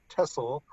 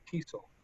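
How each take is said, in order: First: The first vowel is a short E sound. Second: The first vowel is a long E sound. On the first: The speaker calls it wrong. "we don't say TESOL" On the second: The speaker calls it right. "we give it the long E sound"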